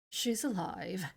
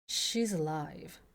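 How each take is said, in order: First: The voice is pitched higher, not very low. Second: The voice is pitched in a very low register. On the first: "It takes me a while to get back into Edgeworths" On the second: "he's in my really, really, really low register"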